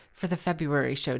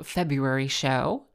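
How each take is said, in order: First: Vocal fry. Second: Said in the usual way. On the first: Shown as a demonstration. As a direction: drop into creaky vocal fry on "show". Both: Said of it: "Do I sound like Barack Obama when I have my little vocal fry?".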